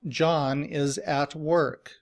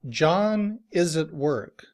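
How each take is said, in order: First: Every word, including at, is said fully. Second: The word at is reduced to a weak ut. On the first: "Every word is pronounced very clearly. ... That is citation form" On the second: "in reduced form, we would say this sentence ... as"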